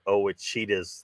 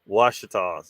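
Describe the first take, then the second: First: The name starts with an 'oh' sound. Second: The name starts with a 'w' sound. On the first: The speaker calls it wrong. "Somebody somebody pronounced it Owachitas" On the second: The speaker calls it right. "It's the Washitas"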